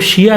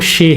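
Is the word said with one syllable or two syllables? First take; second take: two syllables; one syllable. First: It is said as two syllables, shee-ah. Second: It is said as one syllable, shay. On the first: The speaker calls it wrong. "उसको शिया नहीं बोलेंगे" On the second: The speaker calls it right. "उसका pronunciation जो है वो शे है"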